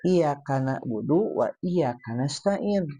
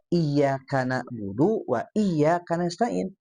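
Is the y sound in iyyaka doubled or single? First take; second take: single; doubled. First: The y sound in iyyaka is short, single. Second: The y sound in iyyaka is held doubled. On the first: Only the sun we worship and only the sun we ask for help. The speaker calls it wrong. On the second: Only You we worship and only You we ask for help. The speaker calls it right.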